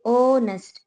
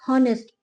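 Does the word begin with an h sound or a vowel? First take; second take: vowel; h sound. First: The word begins directly with a vowel. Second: The word begins with an h sound. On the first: The speaker calls it right. "उसमें एच silent है" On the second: The speaker calls it wrong. "वो गलत है"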